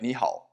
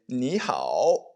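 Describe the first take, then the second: First: The last syllable stays low without rising. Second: The last syllable dips low and then rises. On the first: "this third tone is just not fully enunciated... it sounds like a low tone" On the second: "you can enunciate it"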